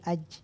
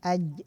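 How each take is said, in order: First: Air audibly escapes after the final consonant. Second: The final consonant ends with no escaping air. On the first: The speaker calls it wrong. "Nah itu belum tepat" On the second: The speaker calls it right. "Tapi tepatnya aj"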